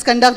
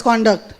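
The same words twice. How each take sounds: First: "conduct" as kun-DUCT; second-syllable stress. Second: "conduct" as CON-duct; first-syllable stress. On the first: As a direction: say "conduct" with a reduced first vowel. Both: Shown as a demonstration. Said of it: "Both are there".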